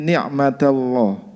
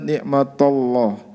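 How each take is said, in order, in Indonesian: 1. Bunyi t itu tipis dan ringan. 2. Bunyi t itu tebal dan berat. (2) "tidak boleh kita baca"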